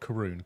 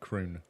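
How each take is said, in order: First: The word is said with two syllables. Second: The word is said with one syllable. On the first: The speaker calls it wrong. "Not caroon" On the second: The speaker calls it right.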